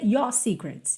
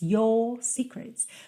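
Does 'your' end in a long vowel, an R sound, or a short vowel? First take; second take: short vowel; long vowel. First: The vowel in 'your' is short without R. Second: The vowel in 'your' is lengthened without R. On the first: The speaker calls it wrong. "Mas não pode ser your secrets" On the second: The speaker calls it right. "os britânicos não costumam enrolar a língua no R... alongar um pouco a vogal"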